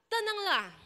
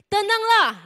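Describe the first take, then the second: First: Said in the usual way. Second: High, loud call to be calm. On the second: Acted. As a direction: call out over the storm. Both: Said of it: "Yesus berkata kepada mereka".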